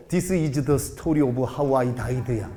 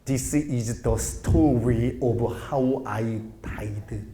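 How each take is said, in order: First: "This is the story of how I died" read slowly with a heavy Korean accent; "This is the story of how I died" tried fancy, but every syllable is still Korean; posh English attempt. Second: "This is the story of how I died" with heavily curled American r; "story" and "died" slurred with rolled r sounds. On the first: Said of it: "최대한 고급지게 해볼라 해도". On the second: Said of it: "알 발음을 좀 더 굴려볼까". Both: Shown as a demonstration.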